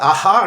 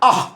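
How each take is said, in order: First: A full vowel follows the h sound. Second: It ends on a bare breathy h. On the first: The speaker calls it wrong. "అది absolutely wrong pronunciation" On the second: The speaker calls it right. "దాని ఉచ్చారణ ఎలా ఉంటుంది అంటే ఆహ్ అని ఉండాలి"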